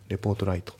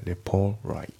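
First: The t at the end of report is clearly pronounced. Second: The t at the end of report is dropped. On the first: The speaker calls it wrong. "レポートライトじゃなくて" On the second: The speaker calls it right. "レポートのT がね、抜けますね。"

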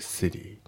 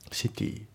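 First: The t in city is voiced, d-like. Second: The t in city is a crisp t. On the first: The speaker calls it right. "シティのt がt に濁りますね" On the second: The speaker calls it wrong. "じゃなくて"

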